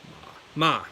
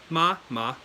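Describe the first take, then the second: No difference in how they are said.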